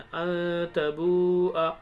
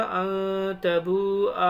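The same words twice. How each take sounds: First: "अन तबूआ" recited slowly, ending on a short आ; unstretched final आ. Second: "अन तबूआ" recited slowly with the last आ held long; stretched final आ. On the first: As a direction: cut the last आ short in "अन तबूआ". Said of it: "Quran के अंदर ऐसे ही पढ़ते हैं". ("अन तबूआ" का आख़िरी आ छोटा, बिना खींचे) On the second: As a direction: drag out the ending of "अन तबूआ". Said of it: "पढ़ना क्या चाहिए था". ("अन तबूआ" का आख़िरी आ लंबा खींचकर) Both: Shown as a demonstration.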